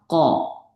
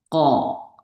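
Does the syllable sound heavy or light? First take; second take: heavy; heavy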